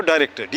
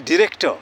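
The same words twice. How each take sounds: First: Director with the final r sounded; everyday Indian pronunciation. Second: Director with an r-less "tuh" ending; British-style pronunciation. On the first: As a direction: say "director" as da-rek-tar, r pronounced. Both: Shown as a demonstration. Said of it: "not director".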